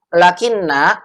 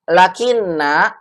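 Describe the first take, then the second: No difference in how they are said.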